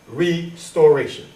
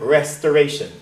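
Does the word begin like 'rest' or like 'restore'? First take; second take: restore; rest. First: The word begins with the sound of 'restore'. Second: The word begins with the sound of 'rest'. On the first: The speaker calls it right. "You are restoring" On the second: The speaker calls it wrong. "They wrongfully pronounce this word restoration. No one is resting here"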